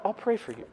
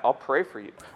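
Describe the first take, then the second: First: It is said warmly and sincerely. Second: It is said as a mocking insult.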